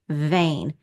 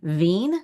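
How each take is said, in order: First: The vowel is a long A sound. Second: The vowel is a long E sound. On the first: The speaker calls it right. "Let's try a long A sound" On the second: The speaker calls it wrong. "E I can also be a long E sound"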